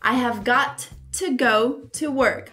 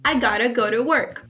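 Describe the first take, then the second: First: Every word is said fully and separately. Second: The words are reduced and run together as gotta. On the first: "o que é bem mais longo, bem demorado" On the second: "fica bem mais rápido e mais simplificado"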